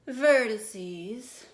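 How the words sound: It is said in a haughty, superior tone.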